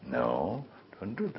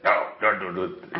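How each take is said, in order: First: It is said in a soft, sweet tone. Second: It is said in a sharp, harsh tone. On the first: The correction is given with kindness. The speaker calls it right. "very sweetly" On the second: The correction is given with severity. The speaker calls it wrong. "You would not say"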